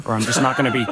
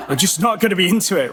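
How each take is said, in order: First: Said in the usual way. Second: Laughing. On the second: Real, not acted. Laughs through the repeat.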